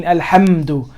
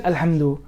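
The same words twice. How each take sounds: First: Alhamdu with ham hit and closed on m; clear sukoon. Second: Alhamdu passed over without hitting the m; unclear sukoon. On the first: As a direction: lean on the m in alhamdu. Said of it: "you really mean". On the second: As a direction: say alhamdu loosely, m unstressed. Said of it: "it's hard to, s-, to understand". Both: Shown as a demonstration.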